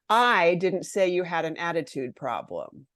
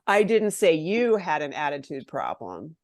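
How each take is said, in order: First: The stress falls on the word I. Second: The stress falls on the word you. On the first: Someone else said it. "I didn't do it. Someone else did" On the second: It was said about someone else. "I was saying it about someone else"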